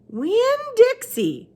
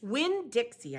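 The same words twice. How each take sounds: First: Put-on high, very slow old woman; Gloria Dump voice. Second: Said in the usual way. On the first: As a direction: draw the name out slowly, high up.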